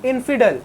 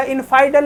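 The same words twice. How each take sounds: First: इनफिडल with a short "i" in the middle; इनफिडल said "infidel", the right way; correct pronunciation. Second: इनफाइडल with "ai" in the middle; इनफाइडल said "infaidel", the wrong way; wrong pronunciation. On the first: (इनफिडल का सही उच्चारण, बीच में छोटा "इ") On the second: (इनफाइडल का गलत उच्चारण, बीच में "आइ") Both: Shown as a demonstration. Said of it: "इनफाइडल नहीं पढ़ना".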